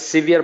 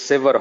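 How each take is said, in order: First: The first vowel sounds like 'ee', as in severe. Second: The first vowel sounds like 'eh', as in never. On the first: The speaker calls it wrong. "আমরা আসলে সিভিয়ার বলতাম" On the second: The speaker calls it right. "এটা আসলে সেভার হবে উচ্চারণটা"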